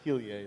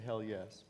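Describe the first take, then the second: First: The name does not sound like 'hell yes'. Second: The name sounds like the words 'hell yes'. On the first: The speaker calls it right. "Heliae is the proper pronunciation" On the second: The speaker calls it wrong. "Some people say hell yes"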